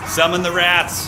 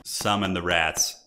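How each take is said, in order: First: High, loud, slow villain summoning; dramatic summons. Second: Low, slow, menacing murmur; low ominous summons. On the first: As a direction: call the rats forth like a warlord. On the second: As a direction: intone it darkly and slowly. Repeated summoning, lower take. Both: Pretend.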